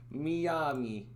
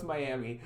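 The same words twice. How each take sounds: First: Miami said as mee-AH-mee; playful mispronunciation. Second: Said in the usual way. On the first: Pretend. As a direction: say Miami with "mee" first and a long "ah". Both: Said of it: "I know it's Miami".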